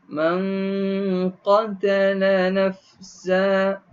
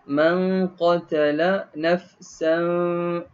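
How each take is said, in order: First: The last word ends on a vowel, without n. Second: The last word ends with an n sound. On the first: The reading stops at this word. "Kenapa saya berhenti pada nafsa?" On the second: The reading continues into the next word. "Kenapa kena baca nafsan?"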